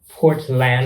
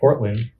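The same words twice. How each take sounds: First: Both parts, port and land, are said distinctly. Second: It is said in the local accent's pronunciation. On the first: "I like saying it like that" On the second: "Not like Portland. ... that's just the local accent"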